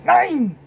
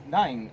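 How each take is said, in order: First: High, loud barked German refusal; mock German shout. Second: Said in the usual way. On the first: Hitler refusing the polite British request, mock shouting. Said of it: "I can't put on a German accent".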